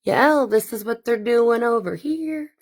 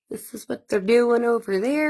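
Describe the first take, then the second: First: Goon reporting in. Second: Higher mock spy report rising at the end; goon reporting in. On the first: Retold or imitated. A goon reporting back to base in a mock henchman voice. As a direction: report it like a spy calling base. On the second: A goon reporting back to base in a mock henchman voice, rising at the end. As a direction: play the snitch calling it in. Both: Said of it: "Reporting back to base".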